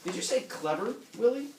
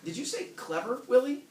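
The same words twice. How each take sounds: First: High, bright-pitched wife voice; a higher, louder wife calling Willie; wife on the phone. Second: Higher and louder wife voice; a pitched-up wife calling her husband; wife on the phone. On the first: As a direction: call him like a sharp wife on the phone. Reading Helen's phone line aloud. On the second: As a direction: call him sharply, rising on Willie. Rereading Helen's line, more forceful. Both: Acted.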